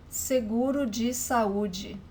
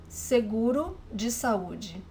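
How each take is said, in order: Both takes have the same delivery.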